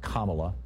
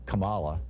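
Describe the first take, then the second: First: The first syllable sounds like calm. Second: The first syllable does not sound like calm. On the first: This is the name's actual pronunciation. The speaker calls it right. "I think it's actually pronounced Kamala, like calm Allah" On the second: This is how the song said the name. The speaker calls it wrong. "the song pronounced it Kamala"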